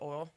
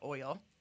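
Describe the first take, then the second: First: Oil is said without the glide, like 'ol'. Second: Oil is said with the full 'oy' glide. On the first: This is the speaker's Southern way of saying it. "I say oil ... I don't pronounce the I in oil" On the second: This is the usual way others say it. "instead of oil"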